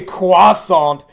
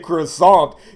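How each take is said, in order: First: It is said with a French accent. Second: It is said with an English accent. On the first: The speaker calls it right. "like an authentic Frenchman" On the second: The speaker calls it wrong. "You're pronouncing it wrong if you say croissant"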